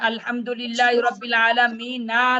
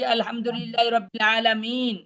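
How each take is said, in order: First: The last word ends with an added vowel. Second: The last word ends on a bare consonant. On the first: This is the form as written, with the final vowel. "না আছে" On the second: This is how it is read when stopping. "আমরা পড়ি"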